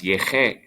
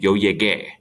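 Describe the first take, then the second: First: Llegué said "yeh-KHAY", with a throaty h for the g; soft G sound. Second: Llegué said "yeh-GAY", with a hard g; hard G sound. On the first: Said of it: "If you leave out the U". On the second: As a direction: model llegué for the class, hard g and stressed ending. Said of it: "Repita en clase". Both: Shown as a demonstration.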